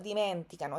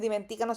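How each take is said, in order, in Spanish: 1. El acento cae en la sílaba men. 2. El acento cae en la sílaba ca. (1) "sino dimenticano, esa es la pronunciación" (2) "no es dimenticano"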